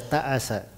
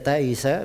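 First: The vowel after the glottal stop is a. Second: The vowel after the glottal stop is i. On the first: "bisa dibaca ta'asa, dua bacaan" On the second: "Bisa dibaca taisa"

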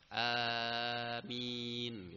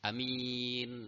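First: The first vowel is drawn out long. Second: The first vowel is kept short. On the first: "dengan dipanjangkan, ya. Nah, setidaknya dipanjangkan 4 harokat" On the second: "bil qasr, dengan dipendekkan ... Tanpa mad"

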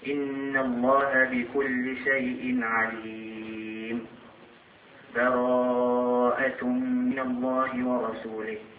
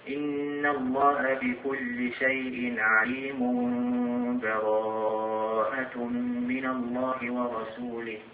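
First: There is a stop with a breath between verses. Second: The two verses run together with no break. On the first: "نقف على آخر الأنفال ثم نأخذ نفس ونقرأ أول سورة البراءة، هذا يسمى الوقف" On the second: "نوصل بين آخر الأنفال وأول البراءة"

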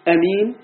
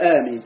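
First: The first vowel is short. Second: The first vowel is drawn out long. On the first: "قل أمين بدون مد" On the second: "المد تقول آمين"

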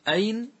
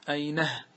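First: The word ends plainly without an added h sound. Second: The word ends with an added h sound.

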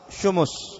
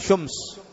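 First: The m is followed by a u vowel. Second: The m has no vowel after it. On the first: "وضمها" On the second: "بإسكان الميم"

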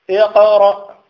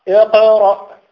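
No difference in how they are said.

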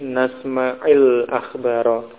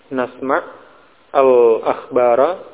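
First: An 'i' vowel links the two words. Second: The first word ends without a vowel. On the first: "menjadi nasma'il akhbara" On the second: "bertemunya dua sukun"

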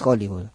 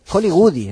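First: The word ends on the consonant d. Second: An extra vowel is added after the d. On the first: "no es Hollywood" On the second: "Hollywoodi, no es Hollywood"

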